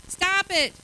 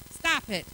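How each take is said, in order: First: Sharp, loud command to stop; firm stop. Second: Said in the usual way. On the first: Real, not acted. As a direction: cut them off loudly and firmly. Preacher scolding congregation's self-talk.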